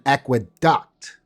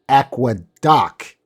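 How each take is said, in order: First: The word ends like 'duct'. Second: The word ends like 'duck'. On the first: It names the Roman water channel. "You hear the difference?" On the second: It names the floating bus in Queensland. "that floating bus thing in Queensland"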